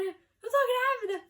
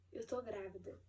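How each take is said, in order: First: Much higher and louder, slow and glowing; overjoyed. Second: Quiet, dazed, hardly believing it; stunned disbelief. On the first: Telling husband Igor the news, overjoyed. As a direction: burst with joy at the news. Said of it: "Fiquei feliz". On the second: Reading the test result alone, in quiet disbelief. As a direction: say it as if you can't believe the words. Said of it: "Eu fiquei, assim, desacreditada". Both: Retold or imitated.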